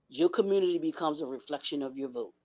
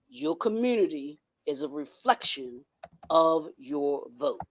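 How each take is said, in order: First: It is said at a normal pace. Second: It is said more slowly.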